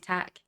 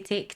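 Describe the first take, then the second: First: The vowel is a short 'a' sound. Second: The vowel is a long 'ay' sound. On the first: This is how Scottish people sing the song. "we say tack" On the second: This is how others sing the song. "we don't say take"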